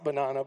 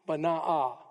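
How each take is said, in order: First: The name is said like the fruit banana. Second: The name is said as two syllables, Baanah. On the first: The speaker calls it wrong. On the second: The speaker calls it right.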